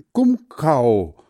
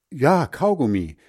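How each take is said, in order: First: "Gumkau" said louder and higher, syllables swapped; garbled word. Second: "Kaugummi" said right, bright and higher; correct word. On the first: Hans Frieder guessing the word again, "Gumkau" said louder. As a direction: stumble out "Gumkau" as a wrong guess. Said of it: "oder wie das Zeug heißt". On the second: Hans Frieder agreeing with the girl, "Kaugummi" said right. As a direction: proudly get "Kaugummi" right at last. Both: Acted.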